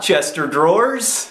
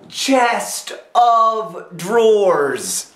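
First: 'Chest of' runs together to sound like 'Chester'. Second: The word 'of' is heard as a separate word. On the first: The speaker calls it wrong. "Not Chester drawers" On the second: The speaker calls it right. "Oh, chest of drawers"

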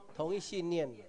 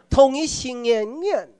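First: It is said in plain standard Mandarin. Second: It is said in an imitated regional accent. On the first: It is the way the speaker's own side says it. "那个叫什么？" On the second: It mimics how a certain group talks. "这不是咱讲的"

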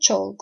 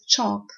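First: The L is pronounced. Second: The L is silent. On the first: The speaker calls it wrong. "Not chalk, of course" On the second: The speaker calls it right. "we have all learned it as"

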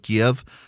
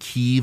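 First: It is said with the Russian-style pronunciation. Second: It is said with the Ukrainian-style pronunciation. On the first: It follows the Russian name for the city. "instead of Kiev" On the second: It sides with the Ukrainian name for the city. "so many people started saying Kiev"

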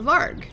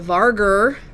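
First: The word ends sharply on the 'g' sound. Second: The word ends with an added 'er' syllable. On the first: The speaker calls it right. "but they're actually called the Varg" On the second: The speaker calls it wrong. "everyone called the Varger"

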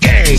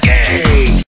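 First: It is said at normal speed. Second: It is said very slowly.

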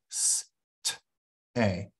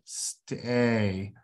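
First: The word is said slowly, sound by sound. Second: The word is said smoothly, at normal speed. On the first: The sounds are being blended from the spellings. "Say it slowly" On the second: The blended word is being read as a whole. "then read it"

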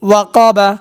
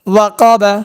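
First: The syllables are joined into one smooth word. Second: The syllables are joined into one smooth word.

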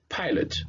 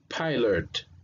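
First: The word is said at normal speed. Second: The word is said slowly and carefully.

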